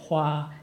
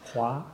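First: The syllable is said without a rising tone. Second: The syllable is said with a rising tone. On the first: The speaker calls it wrong. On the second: The speaker calls it right.

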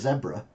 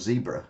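First: The word is said without an American pronunciation. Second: The word is said with an American pronunciation.

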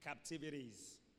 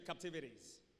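First: The word is said in an American accent. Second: The word is said in an American accent.

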